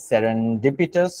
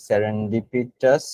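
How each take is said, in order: First: Said in the usual way. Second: Slow spelled-out word. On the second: Shown as a demonstration.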